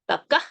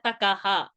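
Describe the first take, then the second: First: No extra sound follows the word. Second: An extra ha sound follows the word. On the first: The speaker calls it right. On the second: The speaker calls it wrong.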